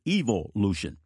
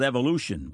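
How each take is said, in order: First: It is said in an English accent. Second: It is said in the speaker's own accent.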